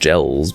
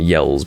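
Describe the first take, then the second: First: The name begins with a J sound. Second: The name begins with a Y sound. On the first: "is in fact Gels, but Gels is just weird" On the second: "I just call you Yells to pronounce the J as a Y"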